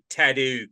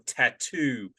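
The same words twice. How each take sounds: First: The t's are said as d sounds. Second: The t's are said as clear t sounds. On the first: The speaker calls it wrong. "my T's turn into D's" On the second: The speaker calls it right. "at least we can pronounce our T's"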